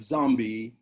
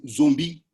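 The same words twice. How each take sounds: First: It uses the Americanized pronunciation of the word. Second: It uses the original African pronunciation of the word. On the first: "it's like an, an Americanized pronunciation" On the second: "The African word from which it comes is"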